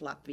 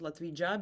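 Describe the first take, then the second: First: The middle consonant is a soft y sound. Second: The middle consonant is a j as in jam. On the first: It is said the way people there say it. The speaker calls it right. "But in there it's Latvia" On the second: It is read straight from the spelling by outsiders. The speaker calls it wrong. "they pronounce it Latvija because it's a J"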